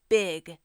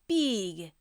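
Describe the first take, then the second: First: The vowel is a short 'i' sound. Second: The vowel is a long 'ee' sound. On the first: The speaker calls it wrong. "instead of big" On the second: The speaker calls it right. "it's pronounced like B with a G on the end"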